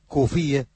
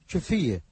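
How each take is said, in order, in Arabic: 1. تبدأ الكلمة بصوت k. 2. تبدأ الكلمة بصوت ch.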